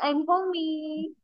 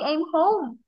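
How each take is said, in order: First: The last word is said with two syllables. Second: The last word is said with one syllable. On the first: The speaker calls it wrong. "If I put it into two syllables, it, it will be read as homey" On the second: The speaker calls it right. "We say"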